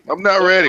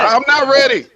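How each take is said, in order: First: Said in the usual way. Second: Mock panic.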